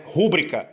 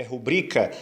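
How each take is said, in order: First: "rúbrica" as RÚ-bri-ca; mispronounced "rúbrica", strong RÚ and weak bri; mistaken first-syllable stress. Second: "rubrica" stressed on BRI; "rubrica" with a strong middle syllable; corrected stress. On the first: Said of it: "não é rúbrica". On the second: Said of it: "A sílaba tônica é o bri". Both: Shown as a demonstration.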